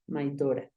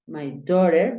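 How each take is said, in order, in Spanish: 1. Se dice con una pronunciación australiana. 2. Se dice con una pronunciación americana. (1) "En Australia es usual que digan Dora" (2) "en un inglés americano es más usual que digan daughter"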